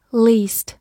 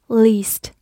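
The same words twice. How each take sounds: The two takes are said the same way.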